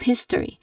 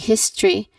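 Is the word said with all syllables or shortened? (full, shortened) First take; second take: full; shortened. First: The word is said with all three syllables. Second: The word is shortened, with a syllable dropped. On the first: The speaker calls it right. "you should say all three syllables here" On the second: The speaker calls it wrong. "They say history instead of history"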